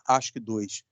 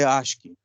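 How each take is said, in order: First: The term ends with an extra word, dois. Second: The term is said alone, without dois. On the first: The speaker calls it wrong. "não é ASCII dois" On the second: The speaker calls it right. "é ASCII"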